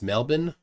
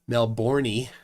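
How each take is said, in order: First: The word ends without a final vowel sound. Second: The word ends with a final vowel sound.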